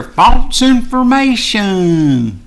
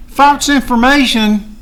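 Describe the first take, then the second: First: False information dragged out very slowly, high and loud with a falling end; scornful repeat. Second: High, loud and slow, disbelieving the words False information; incredulous outrage. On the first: Mocking the censors, a very slow, high, loud falling sneer. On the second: To Facebook censors, a high, loud, slowed outraged question. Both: Real, not acted.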